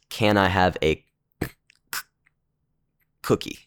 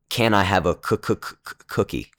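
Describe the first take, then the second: First: The sound is blocked, with throat pops. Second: The first sound repeats quickly several times.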